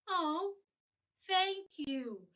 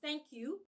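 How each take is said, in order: First: It sounds warm, with falling "you". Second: It sounds flat, without emotion.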